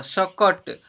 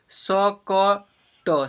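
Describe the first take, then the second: First: Said in the usual way. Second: "सकट" very slow as स, क, ट, with gaps; letter by letter. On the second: Shown as a demonstration. Teacher sounding out "सकट" for learners, letter by letter. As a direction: pull "सकट" apart into three long syllables. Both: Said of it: "ऐसे पढ़ेंगे".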